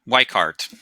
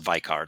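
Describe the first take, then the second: First: The name is said with an English pronunciation. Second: The name is said with a German pronunciation. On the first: This is how the name is usually said outside Germany. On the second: This is how the name is said in Germany.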